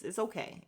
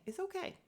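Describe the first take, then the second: First: Said in the usual way. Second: High, soft mocking reassurance; mock soothing. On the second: Shown as a demonstration. Telling Monyetta to calm down, a soft high mock coo. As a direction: coo it soothingly, higher and softer. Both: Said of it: "you gotta calm down".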